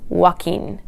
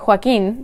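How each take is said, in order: First: Joaquin said the English way, wah-KEEN; anglicised Joaquin, starting on a plain W; English pronunciation. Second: Joaquin said the Spanish way; Spanish-style Joaquin, stressed on the last syllable; Spanish pronunciation. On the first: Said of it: "speakers of English generally tend to pronounce it as". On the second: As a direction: say Joaquin as a Spanish speaker would. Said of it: "in Spanish, it should be". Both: Shown as a demonstration.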